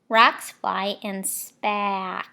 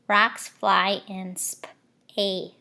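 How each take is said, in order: First: The last word ends with a k sound. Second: The last word ends with an s sound. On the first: The speaker calls it wrong. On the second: The speaker calls it right. "Let me flip the C. Sometimes it says S"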